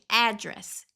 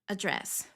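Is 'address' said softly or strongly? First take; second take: strongly; softly. First: The word is said with a strong, forceful sound. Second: The word is said with a softer, weaker sound. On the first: The word is used alone to mean an address. "ele vai ficar com esse som mais forte" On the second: The word is part of the phrase 'email address'. "quando a gente usa email address, o address fica address"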